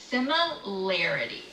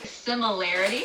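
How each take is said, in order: First: It is said slowly. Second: It is said at normal speed.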